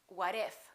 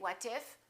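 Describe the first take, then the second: First: The T is a fast D, words linked. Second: The T is a clear T, words separated. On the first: The speaker calls it right. "it becomes a fast D. So when we link it, we say what if" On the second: The speaker calls it wrong. "we don't say what if"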